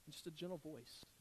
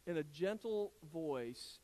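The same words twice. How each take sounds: First: Hushed, soft and gentle. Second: Said in the usual way. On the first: Shown as a demonstration. Preacher shows congregation how God typically speaks, gentle and hushed. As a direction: drop right down to a soft, gentle voice. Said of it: "You know how God typically speaks?". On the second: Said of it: "God typically speaks in a".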